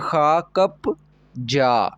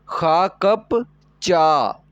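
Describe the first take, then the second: First: The last syllable starts with a plain soft consonant. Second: The last syllable starts with a tense hard consonant. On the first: "rule के बगैर पढ़ते हैं" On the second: "rule लगाएंगे तो क्या हो जाएगा ... जा से चा बन जाएगा"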